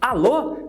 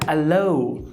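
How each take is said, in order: First: The final o is pure, without a glide. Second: The final o glides into an ou sound. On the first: This is the native Portuguese pronunciation. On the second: This is how a native English speaker says it.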